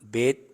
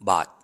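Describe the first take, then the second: First: The vowel sounds like 'ay' in 'bait'. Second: The vowel sounds like 'ah' in 'father'. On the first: "కొంతమంది బేత్ అని అంటారు" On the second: "కొంతమంది బాత్ అంటారు"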